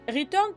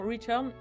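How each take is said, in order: First: It is said with a French accent. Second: It is said with an English accent. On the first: "on va rester avec euh, l'accent français" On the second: "je pourrais dire Return"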